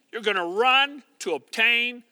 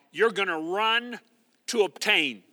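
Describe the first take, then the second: No difference in how they are said.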